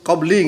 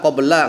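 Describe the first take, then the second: First: The word ends with an i vowel. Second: The word ends with an a vowel. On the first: The speaker calls it wrong. "enggak qabli gitu ya" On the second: The speaker calls it right. "dhorof itu dibaca nasab semua"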